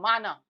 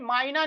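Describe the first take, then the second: First: It is said with two plain 'a' vowels. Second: It is said with a 'y' glide after the first vowel. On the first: The speaker calls it right. "वो माना कहलाएगा" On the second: The speaker calls it wrong. "मायना नहीं होता है"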